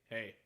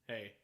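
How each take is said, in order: The two takes are said the same way.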